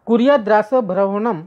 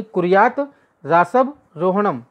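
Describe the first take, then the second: First: कुर्यात रासभ रोहणम run together as one flowing phrase; joined Sanskrit recitation; joined sandhi reading. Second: कुर्यात then रासभ रोहणम split apart, slow and deliberate; slow split-word Sanskrit reading; separated words. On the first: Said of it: "संधि join की गई". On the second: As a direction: pull कुर्यात away from रासभ रोहणम with a pause. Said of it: "उसको अलग किया गया है". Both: Shown as a demonstration.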